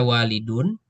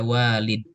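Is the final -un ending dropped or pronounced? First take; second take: pronounced; dropped. First: The word ends with a pronounced -un ending. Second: The word ends abruptly on the final d. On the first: The word is read in connected speech without stopping. "bisa dibaca walidun, dun gitu kan, dalnya bunyi, bunyinya dengan domah" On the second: The word is read as a pause at the end. "kita bisa baca walid"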